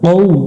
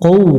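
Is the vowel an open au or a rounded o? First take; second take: rounded o; rounded o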